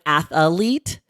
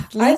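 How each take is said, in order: First: The word has an extra vowel, three syllables. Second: The word has no extra vowel, two syllables.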